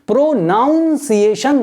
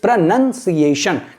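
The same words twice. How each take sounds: First: The second syllable sounds like 'noun'. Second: The second syllable sounds like 'nun'. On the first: The speaker calls it wrong. "नहीं होता, ये गलत word है, ये गलत उच्चारण है" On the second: The speaker calls it right. "It's प्रोनाउंसिएशन"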